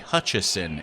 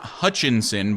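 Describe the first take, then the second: First: The name has no n sound before the ending. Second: The name has an n sound before the ending. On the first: The speaker calls it right. "It is actually Hutchison. It does not have an N" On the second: The speaker calls it wrong. "it is not Hutchinson"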